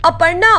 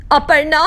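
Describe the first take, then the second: First: Louder call. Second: First call. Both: Acted. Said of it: "Shakuntala चिल्लाती रहती है".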